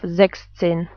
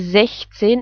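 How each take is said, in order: First: The middle sound is a 'ks' sound. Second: The middle sound is a soft hiss. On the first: The speaker calls it wrong. "instead of" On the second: The speaker calls it right. "we pronounce the German C H like H"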